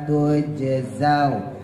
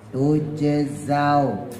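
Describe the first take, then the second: Both takes have the same delivery.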